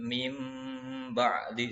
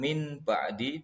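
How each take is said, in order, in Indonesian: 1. Kata pertama berakhir dengan bunyi m sengau. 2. Kata pertama berakhir dengan bunyi n biasa. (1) "tapi mim ba'di, seakan-akan nun sukunnya diganti mim. Dan dibaca dengung" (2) "bukan min ba'di"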